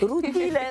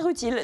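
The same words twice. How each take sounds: First: The name is pronounced the Italian way. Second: The name is pronounced the French way. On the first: The speaker calls it wrong. "je voulais prononcer à l'italienne" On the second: The speaker calls it right. "non c'est Rutile"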